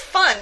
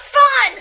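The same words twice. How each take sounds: First: The word is said calmly, at normal volume. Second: The word is said loudly, with excited energy. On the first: She is pleasant company in an ordinary way. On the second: She is wild and exuberant, the life of the party.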